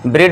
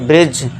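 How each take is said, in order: First: The word ends in a D sound. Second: The word ends in a J sound. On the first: The speaker calls it wrong. "ब्रिड नहीं" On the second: The speaker calls it right. "तो इसे क्या पढ़ेंगे हम? ब्रिज"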